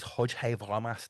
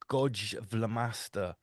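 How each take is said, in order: First: The name starts with a soft, breathy Flemish sound. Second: The name starts with a hard English g sound. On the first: "he pronounces it as Hodge Vlamaster because he's Flemish" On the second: "if you pronounced his name in English"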